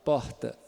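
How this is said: The r sounds like a soft h. "O H é de B H, é do, da capital"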